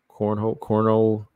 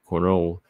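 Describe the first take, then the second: First: The name sounds like the word 'cornhole'. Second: The name flows smoothly without a 'hole' sound. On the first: The speaker calls it wrong. "Just so it don't sound like cornhole" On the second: The speaker calls it right. "I'm gonna say Cornolle. I'm gonna let it flow"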